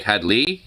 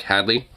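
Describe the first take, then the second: First: "Had Lee" with the weight on "Lee"; emphasis on Lee. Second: Said in the usual way. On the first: Shown as a demonstration. Showing how the contestant said the name, stress on "Lee". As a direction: split "Had Lee", lean on the "Lee". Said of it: "like, a Lee part, you know, kind of emphasis". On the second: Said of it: "where it's nowhere near as emphasized".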